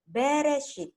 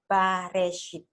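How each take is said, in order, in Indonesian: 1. Suku kata pertama diucapkan dengan vokal e. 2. Suku kata pertama diucapkan dengan vokal a. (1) "orang Ibrani membacanya Bereshit, in a beginning" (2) "Kalau in the beginning, ini bacanya harus dibaca dengan Bareshit"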